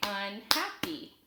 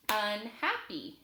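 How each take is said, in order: First: "Unhappy" slowly in beats, Un, hap, py; split into syllables. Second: Said in the usual way. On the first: Shown as a demonstration. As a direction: clap out each syllable of "Unhappy". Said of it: "I'll clap it out". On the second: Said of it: "Listen as I say a word".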